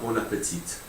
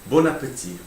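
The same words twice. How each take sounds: First: The final T sound is clearly pronounced. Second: The final T sound is left silent. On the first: The speaker calls it wrong. "It's not bon appetit" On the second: The speaker calls it right. "You don't pronounce the last T in bon appetit"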